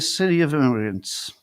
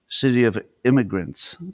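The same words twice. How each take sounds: First: The words are pronounced in an unusual way. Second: The words are pronounced as ordinary English.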